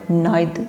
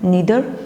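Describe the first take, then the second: First: The first vowel sounds like 'eye'. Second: The first vowel sounds like 'ee'. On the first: "नाइदर भी कह सकते हैं" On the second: "इसको ज़्यादातर नीदर पढ़ते हैं"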